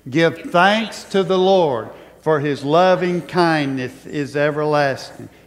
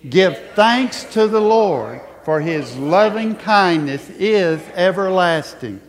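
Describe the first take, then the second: First: It is said in a plain, even reciting voice. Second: It is said with strong, emphatic conviction. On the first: "Say it with me" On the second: "Now say it like you mean it"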